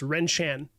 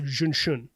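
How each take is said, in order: First: It is read as spelled, starting with R. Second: It starts with a J-like sound instead. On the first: The speaker calls it wrong. "the way that it's written most of the time is Renshan" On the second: The speaker calls it right. "the actual pronunciation is more along the lines of Junshun"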